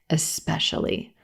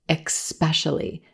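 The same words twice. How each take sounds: First: The first syllable has no k sound: 'es'. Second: The first syllable has a k sound: 'ex'. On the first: The speaker calls it right. "just the E as in red vowel right into the S sound" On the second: The speaker calls it wrong. "like there's an X in the first syllable"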